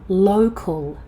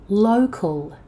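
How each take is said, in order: No difference in how they are said.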